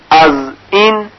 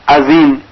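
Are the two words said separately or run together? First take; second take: separately; run together. First: The two words are said separately. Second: The two words run together, one sound dropped. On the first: "به جای اینکه بگویند" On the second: "یک حرف رو که الف باشه حذف می کند"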